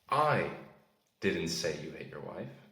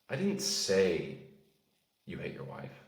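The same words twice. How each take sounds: First: The word 'I' carries the stress. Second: The word 'say' carries the stress. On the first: Someone else said it. "That implies that I didn't say it, but someone did" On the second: It was implied rather than said. "That means you maybe inferred it"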